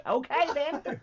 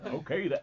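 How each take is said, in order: First: High, loud New Zealand accent. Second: A milder New Zealand accent. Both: Shown as a demonstration. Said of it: "getting my voice right".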